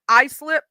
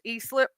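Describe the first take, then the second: First: The first syllable starts with an 'eye' sound. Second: The first syllable starts with an 'ee' sound.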